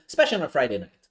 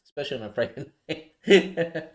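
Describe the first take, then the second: First: Said in the usual way. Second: Laughing. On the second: Real, not acted. Repeating the phrase with a laugh.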